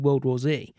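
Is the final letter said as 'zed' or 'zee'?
zee. The final letter is pronounced 'zee'. "I say World War Z"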